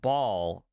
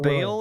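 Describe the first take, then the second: First: The name rhymes with 'ball'. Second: The name rhymes with 'bail'. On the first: This is the British pronunciation. "ball in British English" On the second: This is the American pronunciation. "pronounced Bale in U S English"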